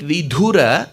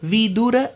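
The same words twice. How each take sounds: First: One syllable of the name is given extra stress. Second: The name is said without the extra stress. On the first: The word means widower. The speaker calls it wrong. "If you stress on the the, making it Vidura" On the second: The word means wise. The speaker calls it right. "Vidura means wise"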